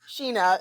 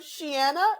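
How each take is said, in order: First: The name is pronounced SHEE-na. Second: The name is pronounced shee-AH-na. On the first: The speaker calls it right. "it's Sheena is just her name" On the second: The speaker calls it wrong.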